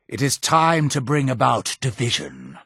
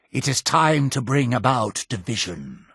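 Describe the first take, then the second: No difference in how they are said.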